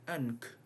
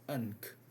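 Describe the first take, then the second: Both takes have the same delivery.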